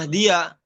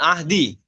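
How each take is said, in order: First: The word ends with an added ya syllable. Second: The word ends on a plain i vowel.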